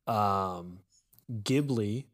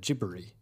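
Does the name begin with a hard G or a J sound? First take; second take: hard G; J sound. First: The name begins with a hard G sound. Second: The name begins with a J sound. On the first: "the proper Italian way to say it" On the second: "they changed it to a J sound"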